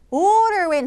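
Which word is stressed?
order. The stress falls on the first word. The speaker calls it wrong. "order in 하면 안 돼요"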